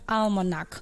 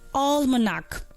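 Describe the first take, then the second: First: The first vowel is not a long all sound. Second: The first vowel is a long all sound. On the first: The speaker calls it wrong. "please also take that correction" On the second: The speaker calls it right. "That's a long all sound"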